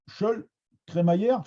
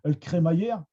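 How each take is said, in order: First: The article before the noun sounds like 'chol'. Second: The article before the noun sounds like 'eul'. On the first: This is how it is said in Abbeville. "à Abbeville, on va dire Scholl" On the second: This is how it is said in Amiens. "à Amiens, on dira Eul cré"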